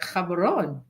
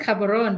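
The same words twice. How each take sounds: First: The word is said with a strained, reshaped pronunciation. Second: The word is said plainly, the way it looks. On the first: This is how the name should be said. "it's pronounced like Cameroon, which I have to really twist and turn my tongue" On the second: This is how the name is written. "it's written Cameroon"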